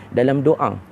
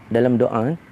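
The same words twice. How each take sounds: Both takes have the same delivery.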